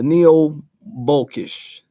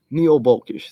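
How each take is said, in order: First: Neo-Bolkish sounded out slowly, syllable by syllable; drawn out, carefully spelled-out Neo-Bolkish; slow careful pronunciation. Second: Said in the usual way. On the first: Shown as a demonstration. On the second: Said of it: "and the Neo-Bolkish".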